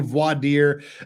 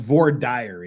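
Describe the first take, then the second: First: It is said with the usual, standard pronunciation. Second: It is said with a local, regional pronunciation.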